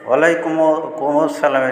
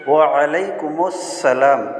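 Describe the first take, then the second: First: It ends in 'kum' directly before 'salam'. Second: An added 'us' links 'kum' to 'salam'. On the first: The speaker calls it wrong. "অনেকেই ভুল বলে থাকে" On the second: The speaker calls it right. "এর সহিটা হবে কি ওয়ালাইকুমুস সালাম"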